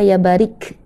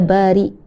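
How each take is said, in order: First: The name ends with a k sound. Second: The name ends with a glottal stop. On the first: The speaker calls it wrong. "Dia bukan qaf, dia bukan kaf, ya bukan ya Barik" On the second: The speaker calls it right. "tapi ya Bari. Ada hamzah di belakang"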